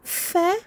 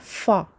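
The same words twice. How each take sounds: First: The syllable is said thin and light. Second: The syllable is said heavy and thick. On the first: The speaker calls it right. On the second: The speaker calls it wrong. "et non pas fa"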